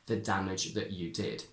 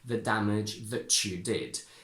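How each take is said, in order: First: The t becomes a glottal stop before you. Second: The t and y merge into a ch sound. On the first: "I would say" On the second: "perfectly correct to say"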